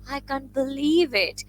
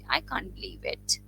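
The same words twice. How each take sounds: First: It is said with strong, pleased emotion. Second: It is said flatly, without strong emotion.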